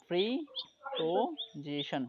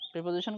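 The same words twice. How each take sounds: First: "প্রিপোজিশন" slowly as pri, po, ji-shon; syllable by syllable. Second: Said in the usual way. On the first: Shown as a demonstration. Teacher giving a polysyllable example, "প্রিপোজিশন" slowly broken into syllables. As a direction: draw out and separate the parts of "প্রিপোজিশন". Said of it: "poly syllable". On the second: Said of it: "করি না আমরা?".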